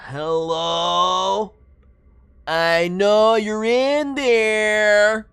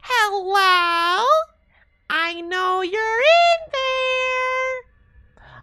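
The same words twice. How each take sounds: First: It is said in a plain voice. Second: It is said in a cute cartoonish voice.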